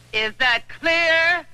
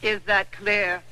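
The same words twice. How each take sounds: First: Slow, higher, each word hammered; slow it down and lean on clear; angry demand. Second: Said in the usual way. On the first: Acted. She repeats her angry challenge.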